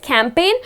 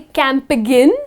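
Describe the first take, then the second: First: No G sound is pronounced in the word. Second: A G sound is pronounced in the word. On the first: The speaker calls it right. "where the letter G goes silent" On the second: The speaker calls it wrong. "You do not say campaign"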